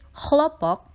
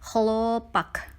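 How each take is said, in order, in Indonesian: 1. Suku kata terakhir memiliki bunyi O yang penuh. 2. Suku kata terakhir memiliki bunyi A yang lemah. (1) "kata ditulis chlopok" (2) "harus dibunyikan dengan A. Sehingga untuk kata ini kita membacanya chlopak"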